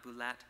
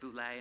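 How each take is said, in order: First: The word ends with an 'et' sound. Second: The word ends with an 'ay' sound. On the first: The speaker calls it wrong. "not Boulette" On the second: The speaker calls it right. "you still pronounce it Boulet"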